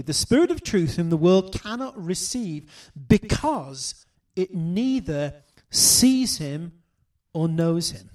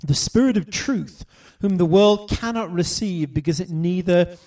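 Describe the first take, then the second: First: Slowing right down on "it neither sees him"; careful, deliberate reading. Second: Said in the usual way. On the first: Shown as a demonstration. Preacher asking the church to notice these words, read slowly. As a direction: lay out each word so they notice it. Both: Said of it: "notice these words carefully".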